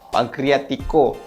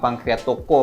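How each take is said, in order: First: The vowel before the final syllable is 'i'. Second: The vowel before the final syllable is 'o'. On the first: The speaker calls it right. "Sebut betul-betul" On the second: The speaker calls it wrong. "Bukan pankreatoko"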